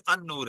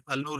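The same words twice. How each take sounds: First: ان نور with no lam, the نون doubled; ان نور with a double n; correct reading. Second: النور with the lam clearly sounded; the Urdu habit: say the l in النور; wrong reading. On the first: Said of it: "النور نہیں ہے، ان نور ہے". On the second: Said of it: "ہم النور کہہ دیتے ہیں، النور نہیں ہے". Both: Shown as a demonstration.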